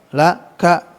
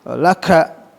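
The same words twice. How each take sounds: Both takes have the same delivery.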